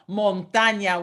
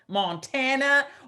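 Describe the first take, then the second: First: It is said with a Spanish pronunciation. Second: It is said with an English pronunciation. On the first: It is the Spanish word meaning mountain. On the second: It names the American state.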